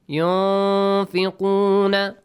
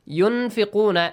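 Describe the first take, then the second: First: The n sound is hidden in nasal resonance. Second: The n sound is pronounced clearly. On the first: The speaker calls it right. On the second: The speaker calls it wrong.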